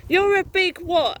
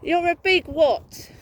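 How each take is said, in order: First: Louder and higher, demanding an answer; angry challenge. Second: Slow, loud and higher, leaning on big; slow taunting repeat. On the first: Woman challenging her online harasser, loud and angry. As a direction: throw the question back at him hard. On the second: Woman taunting her harasser again, slow and loud. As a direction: drag out "big" to mock him. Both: Real, not acted.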